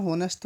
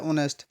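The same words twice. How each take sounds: First: ऑनेस्ट misread with the H sounded, "honest"; wrong pronunciation. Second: ऑनेस्ट starting on the vowel O, no H; silent-H pronunciation. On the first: Teacher showing students the misreading, ऑनेस्ट with a sounded H. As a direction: say ऑनेस्ट wrongly as "hoh-nest", H pronounced. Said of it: "थोड़ी पढ़ते हैं इसको हम". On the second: Teacher showing students how it is read, ऑनेस्ट with silent H. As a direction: say ऑनेस्ट as "on-est", H left silent. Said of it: "इसको पढ़ते हैं ऑनेस्ट". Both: Shown as a demonstration.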